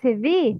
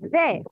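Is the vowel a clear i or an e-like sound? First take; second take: clear i; e-like. First: The vowel is a full, clear i. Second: The vowel is an e-like sound. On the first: The speaker calls it right. "it's vi" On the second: The speaker calls it wrong. "not ve"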